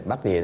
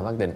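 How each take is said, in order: First: "bát địa" with an open gliding vowel on "địa"; "địa" distinguished from "định". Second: "bát định" with the final nh closed on "định"; "định" distinguished from "địa". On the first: Teacher contrasting two terms, "địa" left open-ended. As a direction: say "địa" as ia, no final nasal. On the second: Teacher correcting a student's term, "định" with nasal ending. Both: Shown as a demonstration. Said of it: "bát định, bát địa thì khác".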